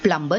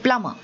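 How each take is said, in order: First: The B sound is pronounced. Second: The B sound is silent. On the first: The speaker calls it wrong. "he's actually not the plumber" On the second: The speaker calls it right. "he's the plumber"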